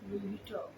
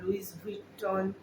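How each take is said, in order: First: Louis ends without an 's' sound. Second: Louis ends with an 's' sound. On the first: The speaker calls it right. "লুই Vuitton বললেই হবে" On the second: The speaker calls it wrong. "কেউ লুইস Vuitton ... বলবে না"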